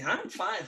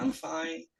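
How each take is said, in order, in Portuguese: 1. É dito em um tom simples e animado. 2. É dito em um tom relutante e desanimado.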